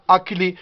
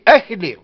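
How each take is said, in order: First: Akli said with a hard k sound as the French write it; French K spelling. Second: Achli with a rasped back kh sound, not a k; Kabyle pronunciation. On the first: Teacher showing how the French spell and say the name, with a hard k. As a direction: say Akli with a plain hard k in the middle. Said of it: "ils le mettent avec un K". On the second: Teacher contrasting the Kabyle name with the French one, kh sound. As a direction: give Achli the throaty kh of Kabyle. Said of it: "Mais nous, on dit Achli". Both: Shown as a demonstration.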